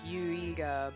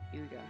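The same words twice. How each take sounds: First: The name is said slowly and drawn out. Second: The name is said quickly and clipped. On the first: The speaker calls it wrong. "it wouldn't be like Huiga" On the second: The speaker calls it right. "you have to say it kind of fast"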